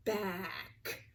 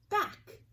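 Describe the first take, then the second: First: Said in the usual way. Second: Bright high back. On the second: Shown as a demonstration. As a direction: pitch the word back way up. Teacher repeats the blended word.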